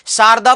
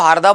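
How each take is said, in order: First: The word begins with an s sound. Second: The word begins with an h sound. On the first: "से को है बोलते हैं" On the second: "शारदा को हारदा बोलते हैं"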